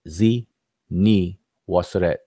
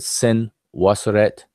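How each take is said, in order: First: The first part is two syllables, 'Z Ni'. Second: The first part is one syllable, 'Sin'. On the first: This follows the spelling in the glyphs. The speaker calls it right. "but it's" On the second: This is the commonly used form of the name. The speaker calls it wrong. "They spell it and pronounce it"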